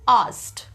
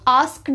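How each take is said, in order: First: No k sound is pronounced in the word. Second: A k sound is pronounced in the word. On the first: The speaker calls it right. "इसमें ये जो के है ये silent है" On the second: The speaker calls it wrong. "ये आस्क्ड नहीं होता है"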